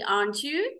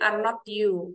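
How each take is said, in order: First: The tag is said as a contracted two-word form. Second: The tag is said as three separate full words. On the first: This is how it is read aloud. "Kalau dibaca" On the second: This is how it is written. "gitu ya kalau ditulis"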